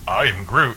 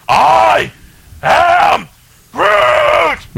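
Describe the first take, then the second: First: It is said in a thoughtful tone. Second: It is said in an angry tone.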